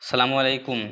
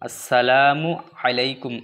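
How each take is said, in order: First: It begins directly with 'salamu', dropping 'as'. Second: It begins with the syllable 'as' before 'salamu'. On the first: The speaker calls it wrong. "অনেক লোক ভুল করে দেয়। এসে যেমন সালামু আলাইকুম, সালামু আলাইকুম না" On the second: The speaker calls it right. "আমরা ফার্স্টে কি আছে? আস আছে"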